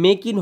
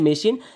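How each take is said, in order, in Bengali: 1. মাঝের ব্যঞ্জনটি k ধ্বনি। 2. মাঝের ব্যঞ্জনটি sh ধ্বনি। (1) "এটা কিন্তু মেকিন হয় নাই" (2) "হয়েছে মেশিন"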